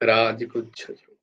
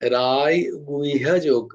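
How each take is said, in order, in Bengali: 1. মাঝের ব্যঞ্জনটি দ্বিত্ব 'chh'-এর মতো শোনায়। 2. মাঝের ব্যঞ্জনটি শ্বাসযুক্ত 'hy'-এর মতো শোনায়। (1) "যখন এই বাংলা উচ্চারণ হবে তখন কিন্তু রাজগুচ্ছ যোগই হবে" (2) "ওইটাই যখন সংস্কৃত উচ্চারণ হবে তখন কিন্তু রায় গুহ্যা যোগ"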